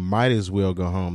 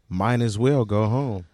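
First: The first word ends in a clear t sound. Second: The first word ends in an n sound. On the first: The speaker calls it right. "rather than saying might as well go home" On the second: The speaker calls it wrong. "they say mine as well go home"

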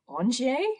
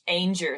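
First: The name is said with French-style sounds. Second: The name is said flat, with English sounds. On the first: This is the original French form of the name. "Presumably it's Angier?" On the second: This is how locals say the street name. "scrubbed the French out of in order to make it just as flat and consonant-y as possible"

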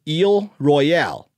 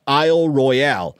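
First: Both words are pronounced the French way. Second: First word English, second word French pronunciation. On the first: "If you want to make it French" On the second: "making the first word English and the second word French"

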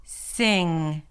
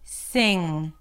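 The two takes are said the same way.

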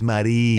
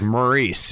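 First: The name is pronounced in a French way. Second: The name is pronounced in an anglicized way. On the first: The speaker calls it right. "And she'd be like, it's Marie" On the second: The speaker calls it wrong. "When I first met her, I would be like"

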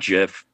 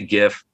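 First: The word starts with a soft J sound. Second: The word starts with a hard G sound. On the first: This is how the inventor says it. The speaker calls it wrong. "that's peanut butter to me" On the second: This is the speaker's own way of saying it. The speaker calls it right. "And I say GIF"

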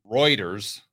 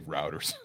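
First: It sounds like the news agency name 'Reuters'. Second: It sounds like the woodworking tool 'router'. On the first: The speaker calls it right. "That's pronounced right" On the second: The speaker calls it wrong. "I would say routers. you can tell one of my first jobs was working on a construction site"

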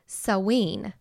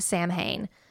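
First: The word is said as 'saween'. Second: The word is said as it is spelled. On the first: The speaker calls it right. "It's actually pronounced Saween" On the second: The speaker calls it wrong. "we usually call it Samhain, but that's actually not the correct pronunciation"

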